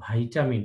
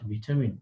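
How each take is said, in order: First: The first syllable sounds like 'vai'. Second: The first syllable sounds like 'vi'. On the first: The speaker calls it right. "ভিটামিনের সঠিক উচ্চারণ ভাইটামিন" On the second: The speaker calls it wrong. "Not ভিটামিন"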